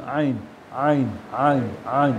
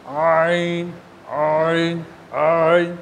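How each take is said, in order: First: আইন said low, slow and relaxed from the throat; আইন সহজভাবে বলা; natural ain. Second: আইন said low and overly forced; আইন ভুলভাবে শক্ত করে বলা; exaggerated wrong ain. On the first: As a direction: model আইন gently for a child to copy. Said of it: "আমার শোনো তুমি". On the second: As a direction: demonstrate the stiff wrong আইন. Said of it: "আপনি ভুল উচ্চারণ করছেন". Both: Shown as a demonstration.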